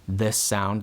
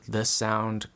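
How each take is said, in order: First: The voice sounds less clear and detailed. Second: The voice sounds clear and detailed. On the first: "This is microphone number one again" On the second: "So this is microphone number two"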